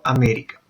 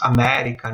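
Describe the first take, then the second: First: América with a Spanish e; América, stressed e not opened wide; Spanish pronunciation. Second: América with an open Portuguese e; América, open "eh" on the stressed vowel; Portuguese pronunciation. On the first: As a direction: say América the Spanish way, vowel colour unchanged. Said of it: "en español sigue siendo América". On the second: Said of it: "en portugués tenemos América". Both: Shown as a demonstration.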